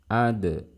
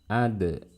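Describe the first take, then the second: Both takes have the same delivery.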